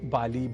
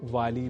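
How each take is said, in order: First: The word begins with a b sound. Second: The word begins with a v sound. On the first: "बाली भी" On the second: "वाली भी"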